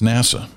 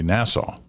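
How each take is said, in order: First: It is not said like the island Nassau. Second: It is said like the island Nassau. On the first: The speaker calls it right. "It's NASA" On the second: The speaker calls it wrong. "like the island"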